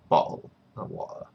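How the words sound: The t sounds are left out entirely. "British people would say ... Or you completely omit the T's"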